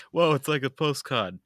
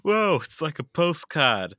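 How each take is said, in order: First: Put-on Australian accent. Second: Put-on Australian accent, slow and loud. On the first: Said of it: "Your Australian is not great". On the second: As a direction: drawl it out like an Aussie soldier. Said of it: "Please do them in an Australian accent".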